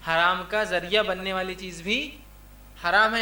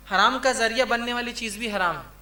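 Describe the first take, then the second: First: Measured teaching pace, held rise on "بھی" then falling close. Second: Said in the usual way. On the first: Real, not acted. Repeats the rule for emphasis.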